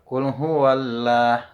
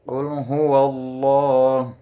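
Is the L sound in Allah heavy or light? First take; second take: light; heavy. First: The L in Allah is light and thin. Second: The L in Allah is heavy and thick. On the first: The speaker calls it wrong. "bukan qul huwallah. Nah, itu salah ya" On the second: The speaker calls it right. "Dibacanya tebal. Tafkhim itu artinya tebal"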